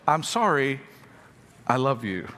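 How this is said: It is said with a pause after sorry.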